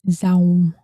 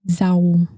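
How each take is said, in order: First: It is said with a northern Vietnamese z sound. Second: The same.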